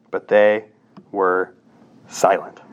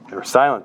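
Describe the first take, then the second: First: Each word set apart with a pause, "But they" then "were" then "silent."; slow and deliberate. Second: Said in the usual way. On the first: Shown as a demonstration. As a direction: drag it out slowly, word by word, a beat of silence between them. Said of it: "slow word-by-word emphasis". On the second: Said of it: "repeat in normal flow".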